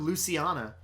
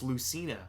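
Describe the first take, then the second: First: The name is said as Luciana. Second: The name is said as Lucina. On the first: The speaker calls it wrong. "I was calling her Luciana" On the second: The speaker calls it right. "oh, it's Lucina"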